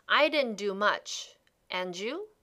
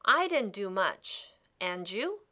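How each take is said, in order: Both takes have the same delivery.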